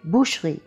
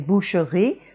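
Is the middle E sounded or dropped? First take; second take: dropped; sounded. First: The mute E in the middle is dropped. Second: The mute E in the middle is sounded. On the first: The speaker calls it right. "we say boucherie, and that mute E is dropped" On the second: The speaker calls it wrong. "We don't say boucherie"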